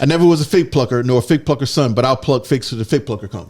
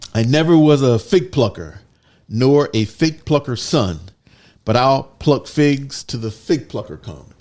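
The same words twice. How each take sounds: First: It is said at a faster pace. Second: It is said at a normal pace.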